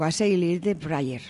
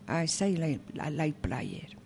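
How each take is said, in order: First: The title is said at a quick pace. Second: The title is said at a slower pace.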